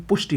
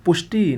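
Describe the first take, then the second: First: पुष्टि ending in short "i"; correct pronunciation. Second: पुष्टि ending in long "ee"; wrong pronunciation. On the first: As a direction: keep the last vowel of पुष्टि short. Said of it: "होता है". (पुष्टि में छोटी "इ") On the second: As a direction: stretch the final vowel of पुष्टि. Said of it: "नहीं". (पुष्टि को "पुष्टी" बोलें) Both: Shown as a demonstration.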